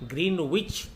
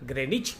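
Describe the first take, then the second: First: The w is sounded and the first vowel is long. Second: The w is silent and the first vowel is short. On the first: The speaker calls it wrong. "భారతదేశంలో చాలామంది గ్రీన్ విచ్ అని" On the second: The speaker calls it right. "దీన్ని సరిగా ఎలా పలకాలో చూద్దాం"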